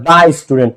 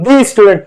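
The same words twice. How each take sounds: First: 'দা student' with a "daa" sound; 'দা' with an open ah vowel; correct article sound. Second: 'দি student' with a "dee" sound; 'দি' with a long ee vowel; wrong article sound. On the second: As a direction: say 'দি' as "dee" before student, the rejected form. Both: Shown as a demonstration. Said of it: "consonant".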